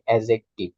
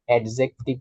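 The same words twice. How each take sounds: First: The d sound is left silent. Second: The d sound is clearly pronounced. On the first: The speaker calls it right. "এটা ডি যেটা আছে এটা silent" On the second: The speaker calls it wrong. "এটার প্রোনাউন্সিয়েশনটা অ্যাডজেক্টিভ না"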